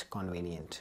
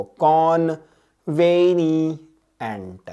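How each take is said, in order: First: Said in the usual way. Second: "कॉन्वेनिएंट" very slow and loud: con... veni... ent; split for memorising. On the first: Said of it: "कैसे याद रखना है इसको". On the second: Shown as a demonstration. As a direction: chant out each part of "कॉन्वेनिएंट", long held vowels. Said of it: "ऐसे याद रखो".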